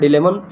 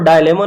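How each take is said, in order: First: The first syllable is said like 'dih'. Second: The first syllable is said like 'die'. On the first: The speaker calls it right. "डिलेमन pronounce होता है" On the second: The speaker calls it wrong. "इसको डायलेमा नहीं पढ़ा जाता"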